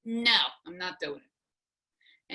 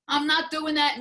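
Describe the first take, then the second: First: Slow, deliberate, each word set down with NO drawn out; the last word, said slowly to end it; final no. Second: Higher, louder and final, NOT hit hard; flat refusal. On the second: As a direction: slam the door on the idea. Retold refusal to husband. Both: Retold or imitated.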